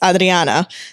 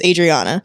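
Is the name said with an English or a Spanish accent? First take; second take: Spanish; English. First: The name is said with a Spanish accent. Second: The name is said with an English accent. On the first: "But in Spanish it's" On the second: "my name in English is"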